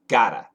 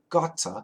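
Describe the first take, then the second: First: The middle consonant is a soft D-like flap. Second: The middle consonant is a clear T sound. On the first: "in America, we use a flap T" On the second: "In the U K, British people might say gotta"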